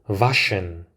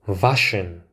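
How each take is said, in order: Both takes have the same delivery.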